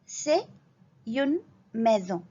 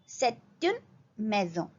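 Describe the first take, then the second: First: No t sound joins c'est and une. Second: A t sound joins c'est and une.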